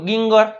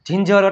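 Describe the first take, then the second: First: The word begins with a hard g sound. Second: The word begins with a j sound. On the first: The speaker calls it wrong. "કોઈ વાંચ્યું ગિંગર" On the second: The speaker calls it right. "શું વાંચે બધાય જિંજર"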